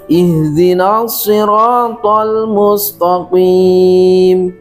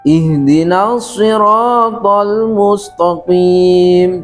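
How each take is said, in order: Both takes have the same delivery.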